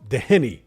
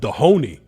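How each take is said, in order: First: The middle syllable sounds like 'hen'. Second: The middle syllable sounds like 'hoe'. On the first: The speaker calls it right. "there's no O after the H, right? So surely that's Doheny" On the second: The speaker calls it wrong. "people are calling him Dohoney"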